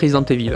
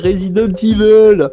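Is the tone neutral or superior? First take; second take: neutral; superior. First: It is said in a plain, neutral tone. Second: It is said in a slightly superior, smug tone. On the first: This is the speaker's own everyday way of saying it. "moi je dis Resident Evil" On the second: Someone else insisted this was the correct way. "avec un petit ton supérieur"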